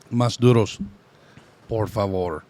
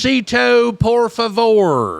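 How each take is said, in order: First: Lightly Spanglish restaurant order; a hint of Spanglish accent. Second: Put-on high, slow Spanglish accent. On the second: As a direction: ham up a Spanglish order at a taqueria. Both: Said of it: "saying English words with a Spanglish accent".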